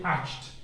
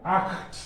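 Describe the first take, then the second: First: Acht mispronounced with "sh", like "asht"; wrong pronunciation. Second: Acht as "akht", hard ch then t; correct German pronunciation. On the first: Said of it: "Don't say acht". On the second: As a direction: model Acht for learners, higher pitched. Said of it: "It's pronounced acht". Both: Shown as a demonstration.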